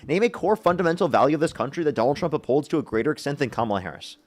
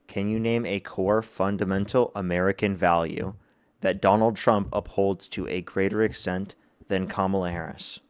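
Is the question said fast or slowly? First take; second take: fast; slowly. First: The question is said fast. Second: The question is said slowly.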